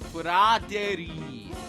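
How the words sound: The name is said with Japanese pronunciation.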